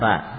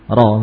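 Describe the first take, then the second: First: The syllable is light with an open a vowel. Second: The syllable is heavy with a rounded o-like vowel. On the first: "Jarang kita mendengar ya, huruf ro ketika fathah dibaca ra" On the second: "ro begitu, seperti huruf isti'la"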